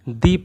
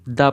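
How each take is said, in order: First: The word ends in a long 'ee' vowel. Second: The word ends in a short 'uh' vowel. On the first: The next word starts with a vowel sound. "अगर अगले शब्द की शुरुआत उसके स्वर की ध्वनि से हो रही है, ... दी प्रोनाउंस करेंगे" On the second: The next word starts with a consonant sound. "अगर अगले शब्द की शुरुआत व्यंजन की ध्वनि से हो रही है, ... द प्रोनाउंस करेंगे"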